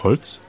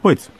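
First: The L is pronounced clearly, in standard German. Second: The L is vocalized, Bavarian style.

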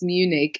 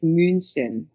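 First: The name is said as English Munich. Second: The name is said as German München. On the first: "in English, it's Munich" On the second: "In German, it's München"

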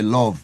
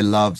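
First: The word is said in a Jamaican-style accent. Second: The word is said in a plain accent. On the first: The speaker calls it right. "say love" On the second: The speaker calls it wrong. "don't say love"

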